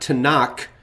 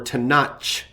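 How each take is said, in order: First: The word ends with a hard k sound. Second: The word ends with a ch sound. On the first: "doesn't end with a hard K" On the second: "or a C H sound"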